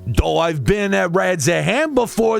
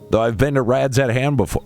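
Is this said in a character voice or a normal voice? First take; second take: character voice; normal voice. First: It is said in a put-on Estinian voice. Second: It is said in the speaker's normal voice.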